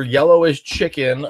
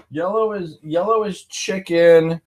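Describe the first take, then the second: First: Said in the usual way. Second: Playful higher re-explanation; higher emphatic repeat. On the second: Shown as a demonstration. Repeats colour explanation for viewers.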